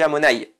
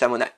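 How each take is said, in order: First: The final 'y' sound is clearly pronounced. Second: The final 'y' sound is dropped. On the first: The speaker calls it right. "même s'il est à la fin du mot, il faut le prononcer. Donc on dit Amonaï" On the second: The speaker calls it wrong. "On dit pas juste Amonaï. Comme ça, on occulterait la prononciation du Yud"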